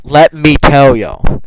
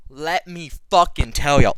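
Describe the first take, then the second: First: Much louder and very slow, drawn out; big hyped shout. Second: Louder, slowed down for emphasis; emphatic buildup. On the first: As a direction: belt it out like a hype man. Repeats it even bigger. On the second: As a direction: lean in and announce it to the audience. Building up to the big meal. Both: Real, not acted.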